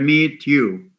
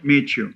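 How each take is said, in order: First: The t and y stay separate sounds. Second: The t and y merge into ch. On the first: The speaker calls it wrong. "most foreign language learners tend to say meet you" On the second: The speaker calls it right. "followed by a ya sound, it goes to ch"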